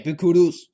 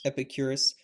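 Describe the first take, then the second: First: It is said in an exaggerated, put-on accent. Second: It is said in a plain, ordinary accent. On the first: This imitates how the ancients might have said it. "It was probably like" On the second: This is the modern way of saying it. "that's probably not how they pronounced it"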